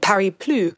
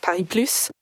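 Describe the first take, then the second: First: The final S of Plus is silent. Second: The final S of Plus is pronounced. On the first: It loosely means Paris no more. The speaker calls it wrong. "with a silent S" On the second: It means Paris plus more. The speaker calls it right. "it is important that we pronounce the S"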